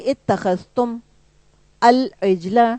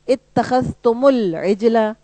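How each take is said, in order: First: Each word is read separately, not linked. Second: The words are linked with an added vowel. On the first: "अलग से आप पढ़ेंगी" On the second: "तो फिर तुम के बजाय वो तुमू हो जाएगा"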